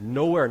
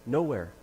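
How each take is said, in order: First: Louder questioning "Nowhere"; retold parent's puzzled "Nowhere"; incredulous echo. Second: Said in the usual way. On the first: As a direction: throw "Nowhere" back as a louder, disbelieving question. Parent echoes the answer, questioning.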